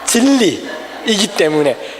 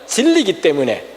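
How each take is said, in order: First: The full form keeps the extra 'i' syllable. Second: The short form drops the extra 'i' syllable. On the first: The speaker calls it right. "이거 발음이 중요해요" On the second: The speaker calls it wrong. "진리기 때문에가 아니라"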